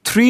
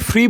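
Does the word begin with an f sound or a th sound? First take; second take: th; f. First: The word begins with a th sound. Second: The word begins with an f sound. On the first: "থ্রি বললে" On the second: "ফ্রি মানে এত হালকা করে উচ্চারণ করবে"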